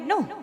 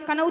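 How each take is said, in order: First: The word starts directly with an n sound. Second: The word starts with a k sound before n. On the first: The speaker calls it right. "बोलते क्या है, नो।" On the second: The speaker calls it wrong. "कनऊ तो बोलते नहीं है।"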